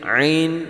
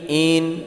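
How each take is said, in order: First: The vowel starts with a throaty sound. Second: The vowel starts without a throaty sound. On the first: The speaker calls it right. "tapi ain ain" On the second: The speaker calls it wrong. "bukan in in"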